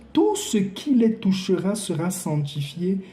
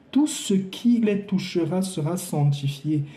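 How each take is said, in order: The two takes are said the same way.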